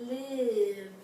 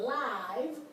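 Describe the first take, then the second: First: The vowel is a short 'i' sound. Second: The vowel is a long 'eye' sound. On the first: "it can be pronounced it as in live" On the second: "the I can be pronounced I as in live"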